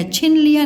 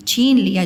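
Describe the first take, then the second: First: छिन with a short i; wrong short vowel. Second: छीन with a long ee; correct long vowel. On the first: Teacher rejects the wrong word, short i in छिन. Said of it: "नहीं होगा". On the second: Teacher confirms the right word, long ee in छीन. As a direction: hold the ee in छीन. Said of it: "छीन होता है ना". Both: Shown as a demonstration.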